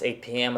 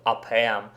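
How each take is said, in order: First: "A P M" as "ay pee em"; English letter names. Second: "up M" as "ah-pah-em"; wrong Russian-style reading. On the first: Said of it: "pronounce A P M as". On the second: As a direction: say "up M" with open Russian a sounds, "ah-pah-em". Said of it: "and not up M". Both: Shown as a demonstration.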